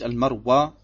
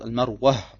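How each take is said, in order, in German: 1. Der Name endet auf einen einfachen offenen Vokal. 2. Der Name endet mit einem hörbaren, gehauchten h. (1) "es ist nicht Al-Marwa, wie es hier im Deutschen heißt" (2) "es heißt Al-Marwa, entweder mit Aha"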